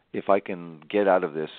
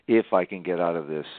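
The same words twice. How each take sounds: The two takes are said the same way.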